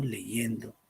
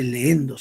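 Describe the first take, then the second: First: "leyendo" said slowly with a clear y between the vowels; correct form leyendo. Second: "leendo" with a long merged ee and no y sound; wrong form leendo. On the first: Teacher models the correct word for the class, slowly. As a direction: give "leyendo" slowly, every syllable clear. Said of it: "sino leyendo". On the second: Teacher mimics a common student error, slowly. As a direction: stretch "leendo" slowly as the mistake. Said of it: "No se dice leendo". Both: Shown as a demonstration.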